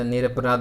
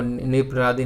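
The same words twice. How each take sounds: First: निरपराध ending on dh, no ee; correct form. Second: निरपराधी ending in a long ee; incorrect form. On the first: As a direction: stop निरपराध on the dh sound. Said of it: "बनता है". (सही रूप निरपराध, अंत में 'ध') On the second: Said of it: "नहीं बनता". (गलत रूप निरपराधी, अंत में 'धी') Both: Shown as a demonstration.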